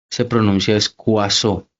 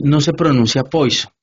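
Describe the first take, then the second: First: Poisson said as kwaso, slowly; correct way. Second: Poisson said as pojso, the French way; wrong way. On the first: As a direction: say Poisson like kwa-so, taking your time. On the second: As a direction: say Poisson like poi-son. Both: Shown as a demonstration.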